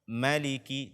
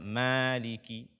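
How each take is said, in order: First: The first vowel is short. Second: The first vowel is lengthened. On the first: The speaker calls it right. "ma-nya pendek" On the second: The speaker calls it wrong. "tidak boleh dibaca"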